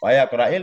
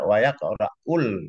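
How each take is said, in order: First: The word ends with an i vowel. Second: The word ends with a u vowel. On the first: It is a prohibition: do not read. "dengan kisah hamzah di atas nahi" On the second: It is a statement that one does not read. "Kalau ya Qura'ul artinya la nafi ini bukan la nahi"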